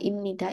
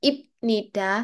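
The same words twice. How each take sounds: First: An m sound is said before nida. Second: A b sound is said before nida. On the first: The speaker calls it right. "biar lebih natural kan langsung bacanya jadi m" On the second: The speaker calls it wrong. "daripada ibnida, ibnida kok kelamaan"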